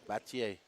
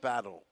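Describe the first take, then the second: First: The name ends with a 'yay' sound. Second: The name ends with an 'ul' sound. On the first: The speaker calls it right. "The L E is pronounced like yay" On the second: The speaker calls it wrong. "It's not battle"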